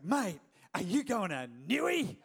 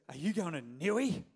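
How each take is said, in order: First: Hammed-up broad yobbo Australian accent. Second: Lightly put-on yobbo Australian accent. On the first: Eager friend pestering the pastor at his office, broad yobbo Australian. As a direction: play a really yobbo Aussie, stretching Newey. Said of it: "like, really, really yobbo Australian". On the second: Friend asking the pastor about the trip, mild yobbo Australian. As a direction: imitate a broad yobbo Aussie. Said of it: "really yobbo Australian".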